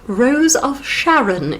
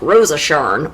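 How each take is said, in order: First: Every syllable of the name is said clearly. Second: The name is run together and clipped.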